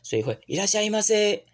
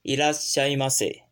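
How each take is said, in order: First: It is said lively with higher pitch. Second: It is said calmly at normal pitch.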